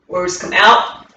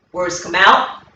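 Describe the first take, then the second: No difference in how they are said.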